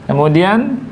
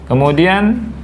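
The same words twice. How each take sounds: No difference in how they are said.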